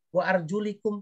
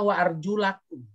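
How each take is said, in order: First: The vowel after 'arjul' is an 'i' sound. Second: The vowel after 'arjul' is an 'a' sound. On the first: This follows another canonical reading tradition. "Ada kiroat lain yang membacanya begini" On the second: This follows the usual Hafs reading tradition. "Kalau kita kan bacanya wa arjulakum"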